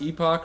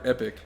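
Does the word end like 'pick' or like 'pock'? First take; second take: pock; pick. First: The second syllable sounds like 'pock'. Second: The second syllable sounds like 'pick'. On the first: "Is it pronounced Epoch" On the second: "or Epic?"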